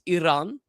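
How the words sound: It is said with a native-style pronunciation. "if you want to say it like correct, it's Iran"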